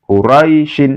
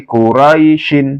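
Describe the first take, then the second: No difference in how they are said.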